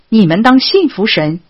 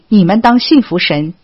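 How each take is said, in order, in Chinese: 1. 这句话语气强烈，带着不耐烦。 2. 这句话语气轻松随意。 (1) "他的语气更像是" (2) "他不只是随口说一句"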